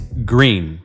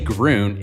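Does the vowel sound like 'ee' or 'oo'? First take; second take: ee; oo. First: The vowel is an 'ee' sound, like green. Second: The vowel is an 'oo' sound, like groon. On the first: The speaker calls it right. "it's green, like the color" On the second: The speaker calls it wrong. "don't say groon"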